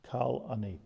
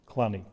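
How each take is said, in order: First: It is said as two separate words. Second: It is said as one contracted word. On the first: "Of the kal ani" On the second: "a contraction"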